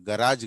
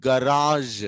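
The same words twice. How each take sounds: First: గరాజ్ ending in a hard, short j; quick గరాజ్ with a plain Telugu j; wrong hard j. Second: గరాజ్ ending in a long buzzed zh; louder, drawn-out గరాజ్ with French-style zh; correct zh ending. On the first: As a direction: say గరాజ్ as "garaaj", with no zh. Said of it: "గరాజ్ కాదు". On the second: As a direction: say గరాజ్ as "ga-raazh", stretched and emphatic. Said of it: "ఎలా పలకాలి?". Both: Shown as a demonstration.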